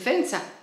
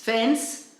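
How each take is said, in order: First: The word ends with an added vowel sound. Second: The word ends on a consonant sound. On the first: "le dicen fensa" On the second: "pues no le dicen fence"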